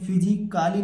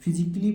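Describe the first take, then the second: First: The ending sounds like 'kaali' with a long vowel. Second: The ending sounds like 'kli' with no extra vowel. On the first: The speaker calls it wrong. "फिजिकाली नहीं पढ़ेंगे" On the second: The speaker calls it right. "फिजिकली पढ़ेंगे"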